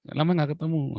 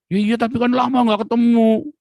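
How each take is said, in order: First: Said in the usual way. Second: Much higher, louder plaintive mum; hammed-up tearful mother; imitating his mother. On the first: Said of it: "begitu ya". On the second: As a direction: mimic a mother who can't let go.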